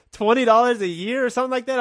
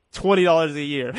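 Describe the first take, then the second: First: Higher, disbelieving echo of the price after a laugh; amused disbelief. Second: Said in the usual way. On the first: Retold or imitated. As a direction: repeat it like you can't believe it's so cheap. Amazed the school fee is so low. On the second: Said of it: "they're like".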